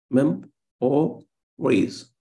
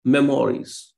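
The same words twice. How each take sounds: First: "Mem-o-ries" very slowly, split into three beats; teacher's drawn-out demo of "Mem-o-ries"; syllable by syllable. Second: Said in the usual way. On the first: Shown as a demonstration. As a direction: break "Mem-o-ries" apart, stressing the first syllable. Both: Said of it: "There is stress on the first syllable".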